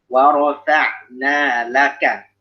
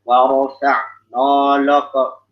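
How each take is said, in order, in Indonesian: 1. Bunyi n dan l ringan dan tipis. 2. Bunyi n dan l berat dan tebal. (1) "Kalau saya warofa na warofa na laka na laka" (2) "jangan warofa no loko no loko. Itu tidak diperkenankan"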